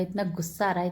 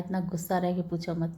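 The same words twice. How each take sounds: First: Said in the usual way. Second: Quick annoyed outburst, half joking; fast fed-up rant. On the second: Real, not acted. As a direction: rattle off इतना गुस्सा आ रहा है quickly in exasperation.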